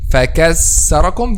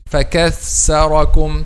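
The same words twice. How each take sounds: First: The middle consonant is a clear s sound. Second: The middle consonant blends s and th sounds. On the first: "This is a clear letter C" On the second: "or a mixing like this"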